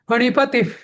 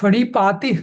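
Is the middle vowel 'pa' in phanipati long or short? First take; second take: short; long. First: The middle vowel is kept short. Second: The middle vowel is drawn out long. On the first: The speaker calls it right. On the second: The speaker calls it wrong. "फणिपाती नाही"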